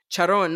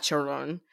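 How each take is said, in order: First: Charon drawn out slowly as the intended name; corrected pronunciation. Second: Charon as the mistaken reading, said quicker; rejected pronunciation. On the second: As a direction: toss off Charon as the version to avoid. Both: Shown as a demonstration. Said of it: "not Charon".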